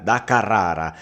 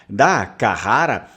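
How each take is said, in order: First: It is said with a strong Italian R. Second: It is said with a Portuguese pronunciation. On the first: "o italiano, provavelmente, ele vai fazer aquele R mais forte" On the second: "Carrara é uma pronúncia portuguesa"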